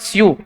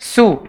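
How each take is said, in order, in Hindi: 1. स्वर से पहले 'y' की ध्वनि आती है। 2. स्वर से पहले 'y' की ध्वनि नहीं आती। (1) "it's not स्यू" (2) "it's सू"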